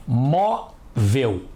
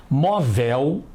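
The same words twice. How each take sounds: First: "Móvel" as MÓ, pause, vel, strong first syllable; separated syllables. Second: "Móvel" with the stress moved to the end, mo-VEL; wrong-stress demonstration. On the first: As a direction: break "Móvel" in two, stressing MÓ. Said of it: "Vamos separar as sílabas". ("Móvel" em sílabas separadas, MÓ forte) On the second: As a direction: echo the misreading, "Móvel" as mo-VEL. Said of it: "Não é assim que costumamos falar". ("Móvel" com a última sílaba forte) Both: Shown as a demonstration.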